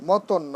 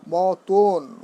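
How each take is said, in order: First: মতন as mo-ton with a short open second vowel; wrong pronunciation. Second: মতন as mo-ton with a long closed o at the end; correct pronunciation. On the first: Teacher showing students what to avoid, wrong pronunciation. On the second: Teacher modelling three-letter words, correct pronunciation. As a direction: stretch the second syllable of মতন, mo-toon. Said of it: "আমরা উচ্চারণ অনেক সময় এভাবে". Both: Shown as a demonstration.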